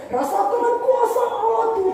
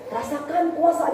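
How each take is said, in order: First: Much higher, exuberant shout of praise; excited praise cry. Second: Said in the usual way. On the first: Retold or imitated. Preacher imitating the young man praising God, exuberant. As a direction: burst out like a youth lost in worship. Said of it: "dia langsung". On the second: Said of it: "Misalnya contoh".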